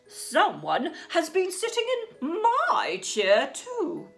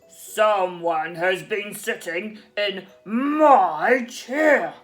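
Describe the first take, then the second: First: It is said in a middle-sized voice. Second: It is said in a great big voice.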